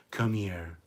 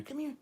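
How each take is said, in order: First: Said in the usual way. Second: Much higher coaxing call; high dog call. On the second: Real, not acted. Coaxing the dog Precious over, high sing-song call.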